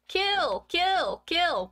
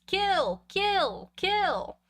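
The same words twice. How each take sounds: First: High shrill screech of a dummy, loud; high shrill dummy scream. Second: High shrill dummy scream. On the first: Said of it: "shrieking at him". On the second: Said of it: "screamed at the top of my lungs in a high, shrill voice". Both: Acted. Boy with dummy screams at sleeping brother, high shrill shriek. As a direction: shriek each kill like a killer puppet.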